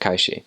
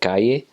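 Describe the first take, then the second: First: The double L sounds like a 'sh'. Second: The double L sounds like a 'y'. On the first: This is how it is said in Uruguay. "but in Uruguay, they would pronounce it calle" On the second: This is how it is said in Mexico. "in Mexico, for example, people would pronounce that calle"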